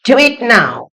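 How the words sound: It is spoken in an American English accent. "ये मैंने American accent में बोला"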